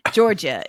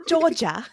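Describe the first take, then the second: First: Said in the usual way. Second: Attempted British accent, raised pitch; hammed-up British accent on one name. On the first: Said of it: "I'm gonna read it in an American accent". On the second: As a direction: have a shaky go at British. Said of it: "Should I read it in a British accent?".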